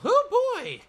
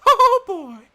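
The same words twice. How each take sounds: First: It is said in a normal voice. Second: It is said in a Mickey Mouse voice.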